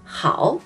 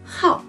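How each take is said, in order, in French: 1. Le ton descend bas puis remonte. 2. Le ton tombe brusquement de haut en bas. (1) "ce caractère qui signifie bien" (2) "peut aussi prononcer comme quatrième ton"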